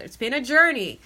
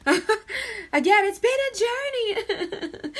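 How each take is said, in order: First: Said in the usual way. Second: High-pitched, slow, breaking into laughter; can't get the words out for giggling; laughing through words. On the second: Real, not acted. Tarot reader to Taurus, laughing through the line. Reader cracks up repeating phrase.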